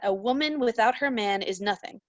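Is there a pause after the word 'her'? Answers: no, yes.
no. It is read straight through without inner pauses. A woman is nothing without her man. "if you read this out loud"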